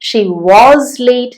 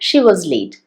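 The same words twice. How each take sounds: First: The word 'was' is long and full. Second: The word 'was' is short and reduced. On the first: The speaker calls it wrong. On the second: The speaker calls it right.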